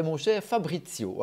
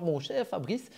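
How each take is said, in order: First: "Fabrizio" with the final -io sounded; "Fabrizio", keeping its Italian-style last syllable; name with last syllable. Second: "Fabrice" ending on the s sound; "Fabrice", the final -io left off; name without last syllable. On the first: Shown as a demonstration. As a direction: correct it to "Fabrizio", ending on an o. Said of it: "mes parents ont mis cette dernière syllabe". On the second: Retold or imitated. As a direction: say "Fabrice" in two syllables, French style. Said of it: "c'est mon cher Fabrizio".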